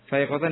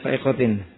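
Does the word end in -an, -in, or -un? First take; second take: -an; -in. First: The word ends with the vowel sound -an. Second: The word ends with the vowel sound -in. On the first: The word describes the state of the subject. "Yang pertama sebagai hal" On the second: The word describes the noun before it. "boleh dibaca fa'iqatin. Na'at dari apa? Alfiyah"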